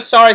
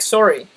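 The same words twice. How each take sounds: First: Said in the usual way. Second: SORRY with a rounded O, "sore-ee"; Canadian sorry. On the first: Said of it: "So instead of sorry". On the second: Shown as a demonstration. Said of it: "Like that".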